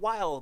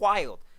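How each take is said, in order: First: The word is said plainly, without extra energy. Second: The word is said with exaggerated, intense energy. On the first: "not wild" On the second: "That's wild times ten"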